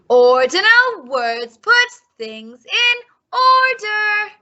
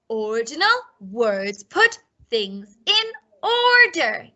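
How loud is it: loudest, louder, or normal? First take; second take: louder; normal. First: It is said a little louder. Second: It is said at normal volume.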